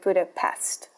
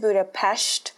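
First: The name is said with American English pronunciation. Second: The name is said with Hungarian pronunciation. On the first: The speaker has not been to the city. The speaker calls it wrong. "instead of Budapest" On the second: The speaker has really been to the city. The speaker calls it right. "I've been to Budapest"

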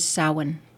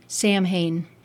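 First: The word is pronounced the traditional Celtic way. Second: The word is pronounced the way it is spelled. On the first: The speaker calls it right. "its Celtic pronunciation is Samhain" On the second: The speaker calls it wrong. "as though it ought to have been pronounced Samhain"

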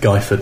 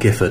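First: The first syllable rhymes with 'eye'. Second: The first syllable rhymes with 'if'. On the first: The speaker calls it right. "it is Guyford" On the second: The speaker calls it wrong. "not Gifford"

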